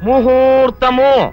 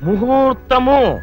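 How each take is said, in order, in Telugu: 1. రెండవ అక్షరం h శబ్దంతో మొదలవుతుంది. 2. రెండవ అక్షరం h శబ్దంతో మొదలవుతుంది.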